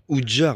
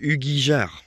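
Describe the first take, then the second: First: The name is said as a short Oudjar. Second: The name is said as a longer Ugijar. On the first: The speaker calls it wrong. "c'est pas Oudjar, hein, je me suis trompé" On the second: The speaker calls it right. "C'est Ugi, euh, Ugijar"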